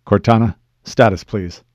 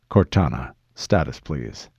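First: Loud, brisk call for status; firm request. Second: Deep, measured request for status; low commander. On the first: Master Chief asks his AI for status, firm and loud. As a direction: raise your voice to demand a report. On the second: Master Chief asks his AI for status, low and controlled. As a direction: drop the voice low, keep it controlled. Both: Acted.

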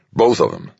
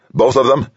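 First: Falling, assured statement; firm confirmation. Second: High, loud rising question; astonished question. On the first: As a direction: confirm it with satisfaction. Chief of staff confirms with satisfaction. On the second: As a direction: ask it in excited surprise. President astonished, asks to confirm. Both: A narrator's reading.

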